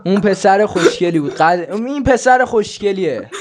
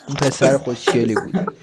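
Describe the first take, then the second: First: Higher and louder, playful hype; loud playful praise; excited repeat. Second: Said in the usual way. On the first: Shown as a demonstration. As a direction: repeat it louder to show him off.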